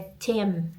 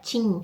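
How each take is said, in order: First: The word ends with the lips closing. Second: The word ends without the lips closing. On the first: The speaker calls it right. "Tem que ter esse fechador, fechadinha de boca" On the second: The speaker calls it wrong. "não é Tim"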